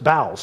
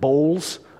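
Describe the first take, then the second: First: It is said like 'bowels', rhyming with 'towels'. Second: It is said like 'bowls', rhyming with 'rolls'. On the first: The speaker calls it right. "It's bowels" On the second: The speaker calls it wrong. "I probably pronounced it bowls of mercy. That's not it"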